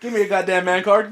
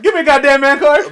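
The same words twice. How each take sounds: First: Said in the usual way. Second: Higher, louder mock macho demand. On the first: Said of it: "repeated, first plain". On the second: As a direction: shout it like a hurt tough guy. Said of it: "repeated louder, higher".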